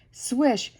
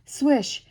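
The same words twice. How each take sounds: The two takes are said the same way.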